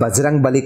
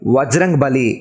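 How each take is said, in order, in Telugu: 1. మొదటి పదం b ధ్వనితో మొదలవుతుంది. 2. మొదటి పదం v ధ్వనితో మొదలవుతుంది. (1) "వాస్తవానికి అది బజరంగ్ బలి కాదు"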